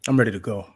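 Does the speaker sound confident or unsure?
confident. It is said firmly, with confidence. The speaker calls it right.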